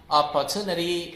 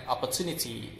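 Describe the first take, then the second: First: American OPPORTUNITY with R and "nuh-dee"; American pronunciation. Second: British OPPORTUNITY, no R, clear "ni-tee"; British non-rhotic OPPORTUNITY; British pronunciation. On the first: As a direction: flap the last T of OPPORTUNITY, American style. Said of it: "in American accent". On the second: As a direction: keep the final T crisp in OPPORTUNITY, British style. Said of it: "in British accent". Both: Shown as a demonstration.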